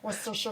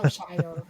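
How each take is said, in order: First: Worcestershire as WUSS-tuh-shuh, softly; Worcestershire quick and soft, ending in shuh; tongue-twister attempt. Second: Worcestershire ending in a full SHY-er; Worcestershire lower, last syllable rhyming with fire; tongue-twister attempt. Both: Shown as a demonstration. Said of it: "Now you got me going".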